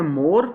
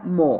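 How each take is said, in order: First: मोर with the final r sounded; Pakistani English pronunciation. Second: मो with a long vowel, no r; long open vowel ending मो, r silent; r-less pronunciation. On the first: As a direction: say मोर Pakistani-style, ending on r. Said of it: "Pakistani speakers इसको पढ़ते हैं". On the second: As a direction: say मो, dropping the final r. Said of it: "और इसकी वैसे pronunciation है". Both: Shown as a demonstration.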